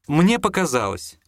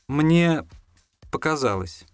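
First: The phrase is said without an inner pause. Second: The phrase has a meaningful pause inside it. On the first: It simply seemed that way. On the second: It is admitted outwardly but inwardly it was real.

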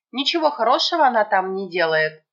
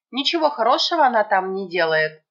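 The two takes are said the same way.

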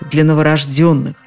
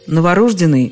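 First: The stress falls on the fourth syllable. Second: The stress falls on the third syllable. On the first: The speaker calls it right. "Произносить это слово так и только так настойчиво рекомендуют словари" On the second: The speaker calls it wrong. "Вариант «новорожденный» в них сопровождается строгой пометой «не рекомендуется»"

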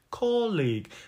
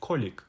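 First: The second syllable keeps a full, clear vowel. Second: The second syllable vowel is squeezed and reduced. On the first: The speaker calls it right. "ударный слог здесь «о» краткий" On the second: The speaker calls it wrong. "но часто ошибочно они говорят colleague"

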